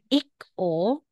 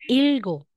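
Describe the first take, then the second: First: The middle consonant is a k sound. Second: The middle consonants are an l and g. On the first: The speaker calls it wrong. "hindi mo siya babasahing ik-o" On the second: The speaker calls it right. "Kung hindi, magiging ilgo"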